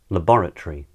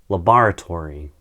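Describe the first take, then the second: First: It is said in a British accent. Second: It is said in an American accent.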